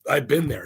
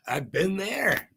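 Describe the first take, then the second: First: Said in the usual way. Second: "I've been there" stretched out slowly and a bit higher; slow, drawn out. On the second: Shown as a demonstration. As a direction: linger on every word of "I've been there". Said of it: "I've been there because why not".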